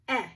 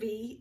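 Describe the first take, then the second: First: "eh" as the short vowel in pen; short E sound. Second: "E" said as a long, drawn-out ee; long E sound. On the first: Teacher showing first graders the short sound, short E. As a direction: say a short, open "eh". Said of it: "short sound of E is gonna go". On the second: Teacher showing first graders the long sound, long E. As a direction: hold "E" as the vowel's own name, ee. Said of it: "long sound of E is gonna go". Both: Shown as a demonstration.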